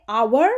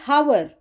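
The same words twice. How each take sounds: First: "our" starting on the vowel, "ow-er"; no h at all, open straight on the "ow" of "our"; silent h. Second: "hour" with the h wrongly pronounced, "how-er"; sounded h. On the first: Teacher showing the correct word, "our" with silent h. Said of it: "used for silent H". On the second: Teacher showing students the mistake, "hour" with an audible h. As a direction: breathe out a clear h to start "hour". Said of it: "We don't say". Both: Shown as a demonstration.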